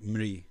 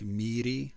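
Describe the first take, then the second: First: It is slurred together into one syllable. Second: It is said as two separate syllables. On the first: The speaker calls it right. "slurred into like one syllable" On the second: The speaker calls it wrong. "it looks like Miri"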